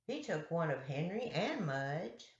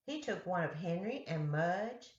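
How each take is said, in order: Both takes have the same delivery.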